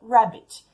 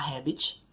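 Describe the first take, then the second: First: The word begins with an English r sound. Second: The word begins with an h sound. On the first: It means the animal rabbit. The speaker calls it right. "Assim como na palavra rabbit, de coelho" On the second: It sounds like the word habit. The speaker calls it wrong. "o nativo vai acabar entendendo a palavra habit"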